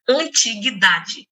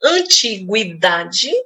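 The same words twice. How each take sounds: First: The u after the g is silent. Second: The u after the g is pronounced. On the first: "ora ele não tendo som" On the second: "este U tendo som"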